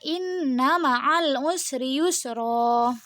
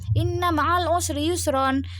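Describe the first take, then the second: First: The last word ends with a long vowel. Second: The last word ends with an n sound. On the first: The reading stops at the end of the verse. "jadi cuman dibaca inna ma'al usri yusro" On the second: The word is read without stopping on it. "harusnya kan inna ma'al usri yusron"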